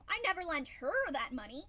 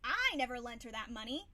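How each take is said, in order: First: The stress falls on the word her. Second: The stress falls on the word I. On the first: Someone else received the money. "but I lent it to somebody else" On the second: Someone else lent the money. "Somebody else may have, but not me"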